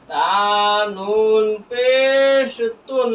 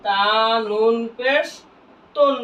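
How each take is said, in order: First: Very slow recitation drill; each letter name held out slowly; drawn-out spelling. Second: Said in the usual way. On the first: Shown as a demonstration. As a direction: stretch পেশ long, then land on তুন.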